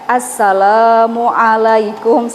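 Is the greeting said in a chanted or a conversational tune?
chanted. It is said with a drawn-out, recitation-like intonation. The speaker calls it wrong. "Jangan Assalamualaikum seperti itu ya"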